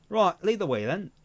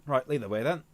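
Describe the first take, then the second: First: Higher retake in an attempted Australian accent, drifting British. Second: Put-on same line slipping into a British accent; British-leaning accent. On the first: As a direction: try the line Australian again. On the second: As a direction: let it fall back to British. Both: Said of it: "still more British".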